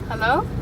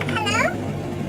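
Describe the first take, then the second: First: It is said in a normal voice. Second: It is said in a funny voice.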